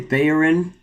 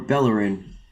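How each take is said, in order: First: The middle consonant is a Y sound. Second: The middle consonant is an L sound.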